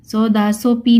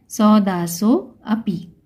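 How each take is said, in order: First: सौदासो पी run together without "a"; wrong avagraha-less reading. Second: Slow सौदासो अपि with the "a" sounded; avagraha as a. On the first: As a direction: jump from सौदासो straight to पी. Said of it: "सौदासो पी नहीं पढ़ेंगे". (सौदासो पी, "अ" गायब) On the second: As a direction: draw out सौदासो, then begin अपि on a clear a. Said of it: "इसको क्या बोलेंगे". (धीरे सौदासो अपि, "अ" साफ़) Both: Shown as a demonstration.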